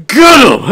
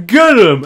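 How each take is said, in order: First: Loud, high barked command; rally the mob to grab him; brawler's loud battle cry; shouted order. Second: Shouted order. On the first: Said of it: "someone just looks at him and just goes". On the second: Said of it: "you just hear a guy go". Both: Acted.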